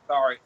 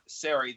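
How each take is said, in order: First: The name sounds like the word sorry. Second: The name does not sound like sorry. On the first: "Today, I started saying sorry" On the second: "That's the way I used to pronounce it"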